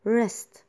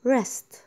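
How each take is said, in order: Both takes have the same delivery.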